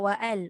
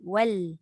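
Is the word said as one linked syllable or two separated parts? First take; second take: separated; linked. First: It is said as two separated parts. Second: It is said as one linked syllable. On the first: The speaker calls it wrong. "bukan wa al" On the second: The speaker calls it right. "wal bukan wa al wal"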